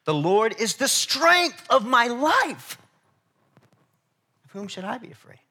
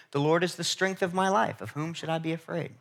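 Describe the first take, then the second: First: Strength of my life, drawn out slow, high and loud, leaning on strength; different emphasis. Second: Said in the usual way. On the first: Shown as a demonstration. Preacher re-reading the psalm to the congregation, slow and emphatic. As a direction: proclaim it slowly, hitting strength. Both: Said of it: "rephrase that last part with a little bit of a different emphasis".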